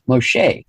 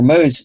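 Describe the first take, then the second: First: The middle consonant is a hard sh sound. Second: The middle consonant is a soft s sound. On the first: This is the Hebrew form of the name. "a hard sh sound is found in the Hebrew variants" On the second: This is the Egyptian form of the name. "A soft S is used in the Mose name"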